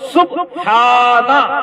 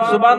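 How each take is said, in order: First: The word is said as subhana with h. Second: The word is said as suban without h. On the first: The speaker calls it right. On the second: The speaker calls it wrong. "सुबान नहीं है वो"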